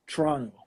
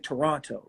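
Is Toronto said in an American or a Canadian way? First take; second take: Canadian; American. First: It is said with a Canadian pronunciation. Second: It is said with an American pronunciation. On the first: "They say Toronto" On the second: "you know how people in America, we say Toronto"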